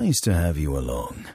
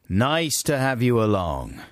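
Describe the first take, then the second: First: It is said in a smooth, sexy DJ voice. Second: It is said in a plain, normal voice.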